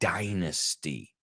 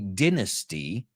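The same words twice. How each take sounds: First: The word is said with an American pronunciation. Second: The word is said with a British pronunciation. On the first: "the Americans say dynasty" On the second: "The British say dynasty"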